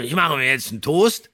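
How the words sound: The sentence is spoken in a slurred, rough way. The speaker is a rough farm worker. The speaker calls it right. "Der muss verwaschen sprechen"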